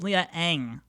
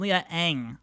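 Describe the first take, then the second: First: The surname is said like 'ang'. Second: The surname is said like 'ang'.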